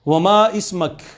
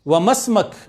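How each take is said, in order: First: Each word is said separately and fully. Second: The words are run together quickly. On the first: It is the more polite, refined way to ask. "ज्यादा मुहज्जब तरीके से" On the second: It is the quick, casual way to ask. "जल्दी से स्पीड से बोल जाते हैं"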